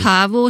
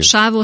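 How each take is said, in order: First: The word begins with a 'ch' sound. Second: The word begins with an 's' sound. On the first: This is the Carpathian Romani and Hungarian form. "A kárpáti cigányban és a magyar köznyelvben" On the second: This is the Italian Romani form. "Az essel, igen"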